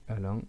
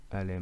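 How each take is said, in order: First: « Alain » dit comme « allant », finale en « an »; mot corrigé. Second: « Alain » avec la voyelle finale « in »; mot mal compris. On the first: (« Alain » prononcé « allant ») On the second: (« Alain », finale en « in ») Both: Shown as a demonstration. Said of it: "ça c'est dû à mon accent".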